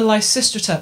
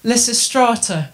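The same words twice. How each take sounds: First: It is said with a British pronunciation. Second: It is said with an American pronunciation.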